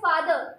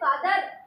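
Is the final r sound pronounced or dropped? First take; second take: dropped; pronounced. First: The final r sound is dropped. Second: The final r sound is pronounced. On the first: "Britishers ... आखिरी में आर ... pronounce नहीं करते" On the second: "हम कहते हैं फादर"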